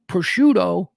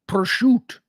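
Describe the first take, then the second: First: The word is said in a standard Italian way. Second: The word is clipped in an Italian-American dialect way.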